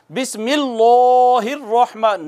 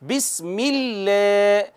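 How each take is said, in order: First: बिस्मिल्लाहिर्रहमान with the लाम wrongly made heavy; wrong heavy lam. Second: बिस्मिल्लाह slowly with a thin, light लाम; light lam. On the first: Teacher showing students the wrong way, heavy lam. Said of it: "इसको यूं नहीं पढ़ेंगे". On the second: Teacher showing students the correct light lam. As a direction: say बिस्मिल्लाह gently, the lam kept fine. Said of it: "इसको बारीक रखना है". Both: Shown as a demonstration.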